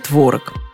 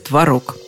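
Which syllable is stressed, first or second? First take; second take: first; second. First: The stress is on the first syllable. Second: The stress is on the second syllable. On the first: This is an acceptable variant. "сойдет и «творог». Словари не считают этот вариант ошибкой" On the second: This is the impeccably correct form. "Хотите быть безупречно грамотным, говорите «творог»"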